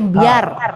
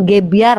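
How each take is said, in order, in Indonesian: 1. Kata itu dimulai dengan bunyi K tak bersuara. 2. Kata itu dimulai dengan bunyi G bersuara. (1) "pakai K itu" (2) "Aku pikir dulu ya gebiar-gebiar, ternyata bukan gebiar loh"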